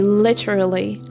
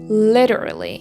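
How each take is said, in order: First: It is said in a British accent. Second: It is said in an American accent. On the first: "Literally is a pronunciation from the British accent" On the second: "if you're gonna say with an American accent, you should say literally"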